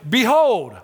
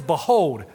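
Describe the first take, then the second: First: Put-on Behold declaimed higher and louder, old-fashioned; grand archaic Behold. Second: Said in the usual way. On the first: Shown as a demonstration. Preacher mocking old-fashioned phrasing, grand and lofty. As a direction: boom out Behold like old scripture. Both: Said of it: "We don't talk like that anymore".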